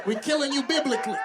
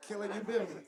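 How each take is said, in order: First: Higher-pitched emphatic verdict; emphatic punchline. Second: Much softer echo of the punchline; hushed repeat. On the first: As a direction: declare it high and firm to the crowd. Punchline delivered out to the crowd. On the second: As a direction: drop the volume right down. Punchline repeated low to himself. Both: Real, not acted.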